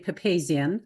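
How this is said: The surname is said with an American pronunciation. This is how most Americans say it. "Most Americans say Papazian"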